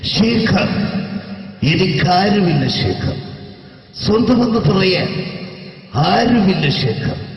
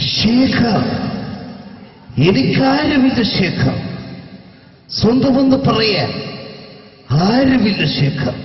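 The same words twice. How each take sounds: First: The line is delivered with milder, restrained intensity. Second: The line is delivered with heavy, exaggerated intensity. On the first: The speaker calls it right. "ശരിക്കും സിനിമയിൽ ഉപയോഗിച്ച ശൈലി ... ഇങ്ങനെയാണ്" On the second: The speaker calls it wrong. "ഇത്ര അത്ര ഇല്ല"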